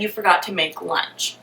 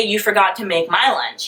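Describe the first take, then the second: First: Forgot to make lunch said softly without my; quiet, flatter quote of his real words; plain quote. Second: My lunch hit with a falling tune; the version with my leaned on; stress on my. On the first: What the boyfriend really said, soft and offhand. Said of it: "He said". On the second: What the boyfriend did not say, stress on my. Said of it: "he didn't say". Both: Shown as a demonstration.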